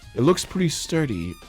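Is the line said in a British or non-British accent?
British. It is said in a British accent.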